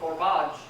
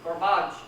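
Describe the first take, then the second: First: The first syllable is swallowed; the second is stressed. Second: The first syllable is swallowed; the second is stressed.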